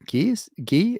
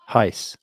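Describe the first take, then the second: First: The name sounds like English 'Guy'. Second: The name sounds like 'Heis'. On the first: The speaker calls it wrong. "is that how you say it?" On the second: The speaker calls it right. "Pronounced Heis"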